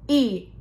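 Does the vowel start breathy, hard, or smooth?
hard. The vowel starts with a hard, grinding catch. "the first example was those grinding of the vocal cords"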